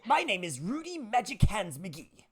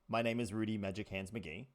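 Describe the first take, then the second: First: Spoken in a loud, put-on character voice. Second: Spoken in the speaker's ordinary natural voice. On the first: "it was a little loud" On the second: "in your normal voice"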